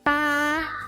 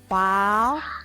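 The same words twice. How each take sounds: First: The pitch stays high and level. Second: The pitch rises from middle to high.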